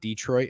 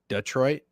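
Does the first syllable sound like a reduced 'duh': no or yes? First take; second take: no; yes. First: The first syllable is not a reduced 'duh'. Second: The first syllable is a reduced 'duh'. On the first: The speaker calls it wrong. "It's not Detroit" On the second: The speaker calls it right. "it's duh, Detroit"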